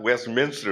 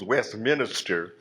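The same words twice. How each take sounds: First: It is said with standard pronunciation, no extra vowel. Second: It is said in Ebonics with an extra vowel.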